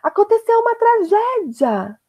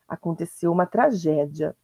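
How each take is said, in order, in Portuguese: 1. É dito com desespero. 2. É dito de forma fria e monótona. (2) "o ponto final está indicando frieza"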